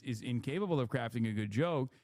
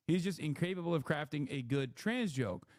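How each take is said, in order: First: Said in the usual way. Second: "trans" picked out with contrastive emphasis; stress on "trans". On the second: Real, not acted. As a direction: lean on "trans" to narrow the claim. Narrows the claim to trans jokes.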